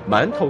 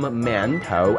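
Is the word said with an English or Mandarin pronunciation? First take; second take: Mandarin; English. First: It is pronounced with Mandarin sounds and tones. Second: It is pronounced with English-style sounds.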